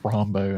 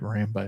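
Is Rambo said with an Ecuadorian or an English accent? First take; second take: Ecuadorian; English. First: Rambo is said with an Ecuadorian Spanish accent. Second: Rambo is said with a plain English accent. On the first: This is the dog's actual name. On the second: This is the movie character's name.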